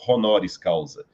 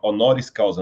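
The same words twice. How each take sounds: First: The h at the start is guttural. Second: The h at the start is silent. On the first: The speaker calls it wrong. "não" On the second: The speaker calls it right. "sem colocar é, gutural no H"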